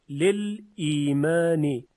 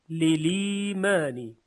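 First: A silent l is followed by a glottal stop. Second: The l takes the vowel with no glottal stop. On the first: "لل لام ساکن و بعدش حمزه قطع ایمان" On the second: "لام میشه مکسور و حمزه حذف میشه"

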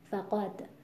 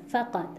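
First: The stress is on the second syllable. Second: The stress is on the first syllable. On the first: It is the word's natural form. The speaker calls it right. "روی قاف وزن کلمه رو اجرا میکنیم که این میشه همون لحن ذاتی" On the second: It sounds like a word from the root meaning loss. The speaker calls it wrong. "اینطوری انگار از ریشه فقده و فقدان هست"

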